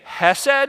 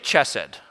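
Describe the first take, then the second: First: The word begins with an h sound. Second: The word begins with a ch sound. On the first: The speaker calls it right. "you can say hesed with an H" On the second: The speaker calls it wrong. "Just don't say chesed"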